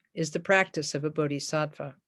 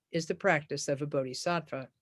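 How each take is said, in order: The two takes are said the same way.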